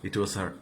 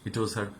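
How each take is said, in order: Both takes have the same delivery.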